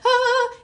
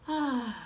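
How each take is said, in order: First: It sounds panicked and tense. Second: It sounds calm and relaxed.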